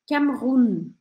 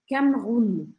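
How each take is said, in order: No difference in how they are said.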